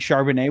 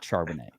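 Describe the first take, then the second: First: The name is said with a French pronunciation. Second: The name is said with an English pronunciation. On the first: The speaker calls it wrong. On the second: The speaker calls it right.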